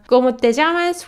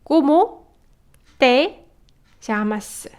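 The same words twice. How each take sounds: First: It is said with a Spanish accent. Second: It is said with a Korean accent.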